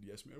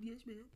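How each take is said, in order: First: Said in the usual way. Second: "Yes, ma'am." squeaked very high, as if crying; high choked voice. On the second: Retold or imitated. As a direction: pitch "Yes, ma'am." way up through tears. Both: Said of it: "Well, I said".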